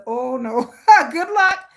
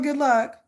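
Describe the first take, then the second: First: A laughing brush-off to her son; laughing good luck. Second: Said in the usual way. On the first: Real, not acted. Laughing at son's dream.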